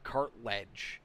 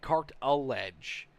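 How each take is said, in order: First: The name is said with no middle syllable. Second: An extra middle syllable is said in the name. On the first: The speaker calls it right. "Like there's no I in there" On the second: The speaker calls it wrong. "I'm saying cart a ledge"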